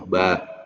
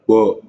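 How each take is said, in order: First: The letter is said thin, with a light vowel. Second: The letter is said thick, with a darkened vowel. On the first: The speaker calls it right. "ba itu tidak tebal" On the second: The speaker calls it wrong. "tidak bo"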